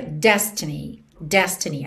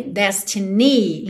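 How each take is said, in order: First: DEStiny, weight on the first syllable; stress on first syllable. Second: "destiny" as des-ti-NEE, final syllable strong; stress on last syllable. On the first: Teacher showing the normal word stress, first syllable strong. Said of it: "A sílaba tônica é a primeira". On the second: Teacher showing stress moved by the melody, last syllable strong. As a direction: shift the weight of "destiny" onto NY. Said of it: "ni acabou ficando mais, mais forte". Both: Shown as a demonstration.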